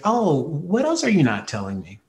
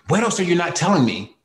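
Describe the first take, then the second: First: It sounds calm. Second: It sounds frustrated.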